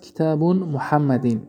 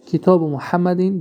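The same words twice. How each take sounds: First: کتاب said as kitabun, with the tanwin -un, before محمدین; deliberate wrong take, کتاب pronounced kitabun; wrong form with tanwin. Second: کتاب said as kitabu, ending in short -u, before محمدین; correct form without tanwin. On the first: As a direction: slowly demonstrate the mistaken کتاب as kitabun. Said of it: "خطا". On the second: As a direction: show the right کتاب as kitabu, no -n. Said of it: "درست". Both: Shown as a demonstration.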